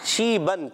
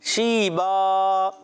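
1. یہ لفظ 'ن' کی آواز پر ختم ہوتا ہے۔ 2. یہ لفظ لمبی 'الف' کی آواز پر ختم ہوتا ہے۔ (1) "یہ اصل لفظ تھا شیبن" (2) "جیسے ہی ہم نے یہاں وقف کیا تو یہ شیبا دو زبر کی تنوین کو الف سے بدلا"

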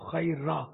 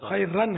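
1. لفظ لمبی آ کی آواز پر ختم ہوتا ہے، ن نہیں۔ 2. لفظ ن کی آواز پر ختم ہوتا ہے۔ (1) "وقف کریں گے تو" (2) "خیر رن ہے الف و دو زبر"

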